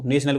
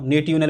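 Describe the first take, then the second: First: "नेशनल" with a sh sound for the TI; standard pronunciation. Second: "नेटिवनल" with the T sounded out as written; spelling pronunciation. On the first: Teacher showing students how national is spoken, "नेशनल" with sh for TI. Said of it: "नेशनल बोला". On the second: Teacher showing students how national is not said, spelling pronunciation "नेटिवनल" with sounded T. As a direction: say "नेटिवनल" letter by letter, a hard T instead of sh. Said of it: "बताओ, नेटिवनल बोलते इसको". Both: Shown as a demonstration.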